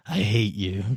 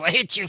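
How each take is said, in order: First: Low, quiet creature voice; calm. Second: High-pitched, muted creature rage; frantic little demon voice, pitched way up; angry little demon. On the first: Demon calms down in the bottle and looks at you, calm low hatred. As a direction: say it softly and low, with composure. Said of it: "it looks at you and calmly says". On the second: Little demon cursing from its bottle, high angry voice. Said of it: "flips you multiple birds and then just goes". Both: Acted.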